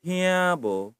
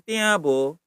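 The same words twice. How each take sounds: First: Tiabo with aspirated "th"; breath of h after the t in tiabo; pronounced with H. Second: Slow tiabo without aspiration; hard unaspirated t in tiabo; wrong pronunciation. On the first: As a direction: say tiabo as "t-hia-bo". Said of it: "pakai H ya". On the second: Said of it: "bukan tiabo". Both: Shown as a demonstration.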